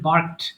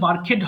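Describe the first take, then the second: First: The ending joins the word as one syllable. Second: The ending is a separate extra syllable. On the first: The speaker calls it right. "এটা হবে বার্কড" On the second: The speaker calls it wrong. "এটা কিন্তু বার্কেড হবে না"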